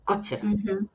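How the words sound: The mouth stays nearly closed, Japanese style. "in the movies, it's like ... It's not so much opening the mouth"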